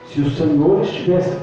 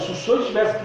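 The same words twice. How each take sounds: First: It is said in a humble, gentle tone. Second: It is said in an accusing, agitated tone. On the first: The speaker is grieving without blame. The speaker calls it right. "Maria não acusou. A Bíblia diz que ela se prostrou" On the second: The speaker is blaming the listener. The speaker calls it wrong. "Marta chegou igual a louca, acusando Jesus"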